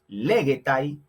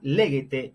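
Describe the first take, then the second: First: The ending is said as a diphthong 'ai'. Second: The ending is said as a plain 'e' vowel. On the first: This is the older classical pronunciation. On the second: This is the later Koine pronunciation.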